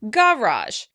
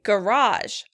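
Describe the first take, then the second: First: The stress is on the first syllable. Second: The stress is on the second syllable. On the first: This is how British speakers say it. "The British stress this word on the first syllable" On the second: This is how American speakers say it. "In American English, we say"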